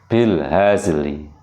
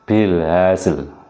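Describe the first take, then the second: First: The word ends with a soft, half-voiced final vowel. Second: The word ends on a silent consonant, no vowel. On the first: "separuh dari dari huruf sebelumnya" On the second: "mematikan dua huruf dengan suara pendek"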